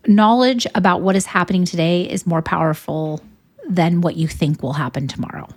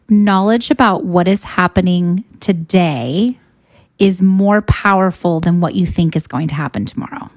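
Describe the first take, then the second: First: It is said at normal speed. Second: It is said slowly and deliberately.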